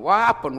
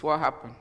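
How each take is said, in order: First: Louder, pressing "What happened?"; louder worried question. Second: Said in the usual way. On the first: Retold or imitated. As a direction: push harder for an answer. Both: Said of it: "My son said".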